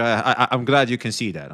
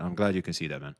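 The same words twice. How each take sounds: First: Said in the usual way. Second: Softer, muttered "I'm glad you can see that"; dropped to a soft aside; quiet repeat. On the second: Real, not acted. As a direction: say it again half to yourself. Repeats the line under his breath.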